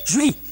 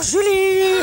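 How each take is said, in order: First: Said in the usual way. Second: Name sung out high and loud; calling out. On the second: Acted. Casimir calling Julie across the garden, high loud call. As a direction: call her name from afar.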